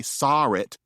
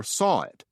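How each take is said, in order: First: "saw it" said as "sawr it"; intrusive R. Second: Said in the usual way. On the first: Shown as a demonstration. What some New England people say, "saw it" with an added R. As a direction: put an R between "saw" and "it". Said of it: "there's always a missing R after it". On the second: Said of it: "this is why some people say".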